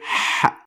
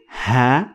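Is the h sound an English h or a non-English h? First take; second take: non-English h; English h. First: It begins with an h sound unlike English h. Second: It begins with an ordinary English h sound. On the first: The speaker calls it right. "but you say ha" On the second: The speaker calls it wrong. "you don't say ha"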